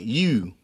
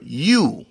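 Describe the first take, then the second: First: YOU as fronted "yew"; Baltimore pronunciation. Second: Said in the usual way. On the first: Shown as a demonstration. Showing hometown speech, YOU said "yew". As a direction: squeeze YOU forward into "yew". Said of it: "we would say it like". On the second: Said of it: "like Y O U".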